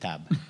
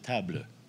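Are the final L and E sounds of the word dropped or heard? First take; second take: dropped; heard. First: The final L and E sounds are dropped. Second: The final L and E sounds are pronounced. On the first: This is how it is said in Quebec. "Au Québec ou au Canada français, on va dire table" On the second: This is how it is said in France. "Un Français pourrait dire table"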